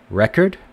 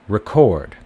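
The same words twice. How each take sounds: First: The stress is on the first syllable. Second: The stress is on the second syllable. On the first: It is a noun. "nouns and verbs" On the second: It is a verb. "nouns and verbs"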